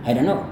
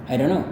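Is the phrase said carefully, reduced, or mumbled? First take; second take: reduced; reduced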